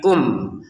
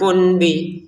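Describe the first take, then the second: First: The word ends with an m sound. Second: The word ends with an n sound. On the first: The speaker calls it right. "tapi kum" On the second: The speaker calls it wrong. "bukan kun bi"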